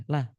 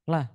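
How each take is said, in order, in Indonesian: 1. Vokalnya diucapkan pendek dan terpotong. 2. Vokalnya diucapkan pendek dan terpotong.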